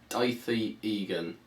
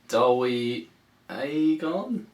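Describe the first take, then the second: First: The first name begins with an 'eye' sound. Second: The first name begins with an 'ow' sound. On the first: It is read straight from the spelling. "if I read it, it's like" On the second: It follows the given phonetic guide. "if I tried to do his phonetic"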